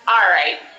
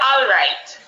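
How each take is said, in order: First: The first syllable sounds like 'are'. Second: The first syllable sounds like 'all'. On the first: This is how Jamaicans say it. "We say alright" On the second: This is the standard form, not the local one. "We don't say alright"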